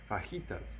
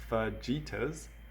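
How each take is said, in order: First: The j is said as an H sound. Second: The j is said as a J sound. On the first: The speaker calls it right. "The J sounds like an H" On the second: The speaker calls it wrong. "it looks like fajitas"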